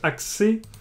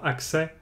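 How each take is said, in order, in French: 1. La voyelle finale est un son é fermé. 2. La voyelle finale est un son è ouvert. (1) "avec un « et » fermé"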